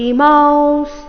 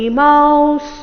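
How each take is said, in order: No difference in how they are said.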